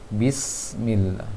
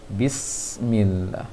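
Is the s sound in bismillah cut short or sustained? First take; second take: sustained; sustained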